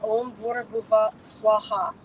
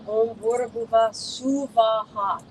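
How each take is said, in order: First: The last word is squeezed into two syllables. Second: The last word has three separate, equal syllables. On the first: The speaker calls it wrong. "normally they're pronouncing it" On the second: The speaker calls it right. "Three separate equal syllables"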